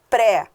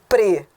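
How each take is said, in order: First: The prefix is stressed, with an open vowel. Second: The prefix is unstressed, with a reduced vowel. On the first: "como eu pronunciei agora" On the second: "Pre é átono"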